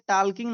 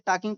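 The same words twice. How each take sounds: First: The L sound is pronounced in the word. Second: The L sound is silent in the word. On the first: The speaker calls it wrong. "इसे टॉकिंग नहीं पढ़ा जाएगा" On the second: The speaker calls it right. "यल silent है, इसे टॉकिंग पढ़ा जाएगा"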